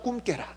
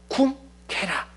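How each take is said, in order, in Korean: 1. 두 단어를 빠르게 이어서 말해요. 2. 두 단어를 천천히 따로 말해요.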